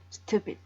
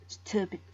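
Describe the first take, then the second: Both takes have the same delivery.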